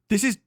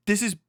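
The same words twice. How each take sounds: The two takes are said the same way.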